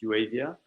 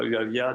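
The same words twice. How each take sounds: First: The name is pronounced with English sounds. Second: The name is pronounced with French sounds. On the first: "en anglais c'est plus Uavia" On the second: "la boîte est française"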